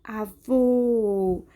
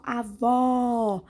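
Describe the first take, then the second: First: AVÔ with a drawn-out, closed ô; closed vowel demo. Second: AVÓ with a drawn-out, wide-open ó; open vowel demo. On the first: Teacher shows pupils the circumflex, long closed AVÔ. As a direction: round and hold the final ô of avô. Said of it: "Quando eu fecho mais a boca". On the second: Teacher shows pupils the open accent, drawn-out open AVÓ. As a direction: stretch the final ó of avó, mouth wide open. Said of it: "eu abro mais a boca". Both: Shown as a demonstration.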